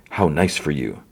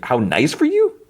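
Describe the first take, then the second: First: Low, understated quote of a character; retold cool remark. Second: Puzzled, high rising question; baffled echo. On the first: Luthen answering Mon at the wedding, retold with restraint. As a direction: quote it evenly, falling at the end. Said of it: "And then Luthen's like". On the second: Real, not acted. Host questioning Luthen's odd remark, baffled. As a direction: repeat it in confusion, pitch climbing at the end. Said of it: "I don't know what, what he's saying".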